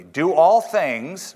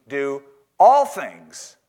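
First: Slow with "all" stressed and rising. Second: Slow with "all" stressed and falling. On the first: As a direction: lean on "all" slowly, questioning. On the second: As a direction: land firmly on "all". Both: Shown as a demonstration. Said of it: "I'll say it again".

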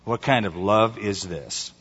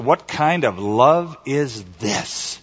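First: Softer, lower echo with "kind" stressed; "kind" leaned on, falling and hushed; quiet repeat. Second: Slow, leaning on "love"; slowly and clearly, stretching "love"; translated question. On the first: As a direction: drop the voice and hit "kind". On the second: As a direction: draw out "What kind of love is this?" and stress "love". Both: Shown as a demonstration. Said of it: "Or you might translate it".

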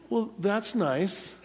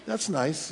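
First: Soft, slow and unenthused; unimpressed. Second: Soft, unenthused repeat; unimpressed. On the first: Retold or imitated. Preacher doubts coworker's news, soft unimpressed reply. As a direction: brush it off coolly. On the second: Shown as a demonstration. Preacher demonstrates his doubtful reply, soft and unimpressed. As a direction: shrug it off coolly. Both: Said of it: "That's sort of how I said it".

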